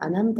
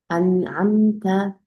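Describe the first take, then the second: First: The word is rushed through quickly without holding. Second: The word is held briefly, then moves on. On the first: The speaker calls it wrong. "이렇게 빨리 지나가시면 안 되고요" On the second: The speaker calls it right. "정확하게 발음해 주시고 넘어가 주시는 게"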